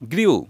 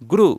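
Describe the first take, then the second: First: The vowel after the r sounds like 'yoo'. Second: The vowel after the r is a plain 'oo'. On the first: The speaker calls it wrong. "ভুল করে কি বলি?" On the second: The speaker calls it right. "এটার সঠিক উচ্চারণ হবে গ্রু"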